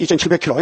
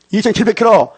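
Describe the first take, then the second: First: Said in the usual way. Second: "이천칠백 킬로" higher, punched on 킬로; emphatic repeat. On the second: Real, not acted. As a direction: drive home "이천칠백 킬로" with raised pitch.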